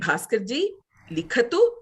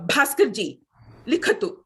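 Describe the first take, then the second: First: It is said in a gentle, polite requesting tone. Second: It is said in a firm, commanding tone. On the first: The speaker is asking politely for writing. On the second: The speaker is ordering someone to write.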